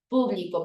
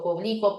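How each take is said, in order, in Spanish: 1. El acento está en la primera sílaba. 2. El acento está en la segunda sílaba.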